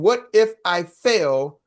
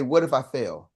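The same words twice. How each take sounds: First: What if I fail stretched out slowly, every word weighed; slow, drawn-out doubt. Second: Said in the usual way. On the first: Shown as a demonstration. Coach slowly voicing a fearful trainee's doubt. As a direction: let What if I fail crawl out anxiously. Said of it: "if you're thinking". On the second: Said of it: "poor people say".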